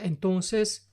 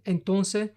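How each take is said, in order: First: The final S sound is clearly pronounced. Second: The final S sound is left out. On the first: "cuando lo pronuncio correctamente" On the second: "cuando no pronuncio la S"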